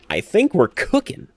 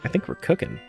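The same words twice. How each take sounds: First: It is said in a put-on streamer voice. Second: It is said in his plain, natural voice.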